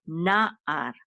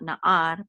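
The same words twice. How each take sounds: First: Na'ar with a strong NA and a falling ar; stress on first syllable. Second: Na'ar with the weight moved onto a rising AR; stress on last syllable. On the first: Teacher correcting the wrong accent, na'ar stressed on NA. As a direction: hit the NA of na'ar, then let ar fall away. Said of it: "the accent is on this first". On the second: Teacher showing the wrong accent, na'ar stressed on AR. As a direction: lean on the AR of na'ar, as the mistake to avoid. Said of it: "not na'ar". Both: Shown as a demonstration.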